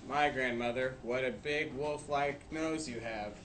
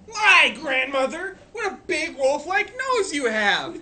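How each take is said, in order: First: It is said flatly, without strong feeling. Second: It is said as a strong, lively exclamation.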